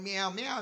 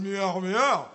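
First: It sounds like a small, soft kitten. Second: It sounds like a big, growling grown cat.

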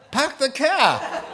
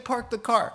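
First: It is said in a Boston accent. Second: It is said in a general American accent.

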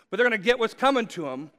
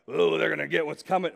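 First: It is said in a normal voice. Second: It is said in a pirate-like voice.

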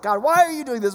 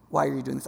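First: It is asked in an accusing, yelling tone. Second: It is asked in a curious, inquiring tone.

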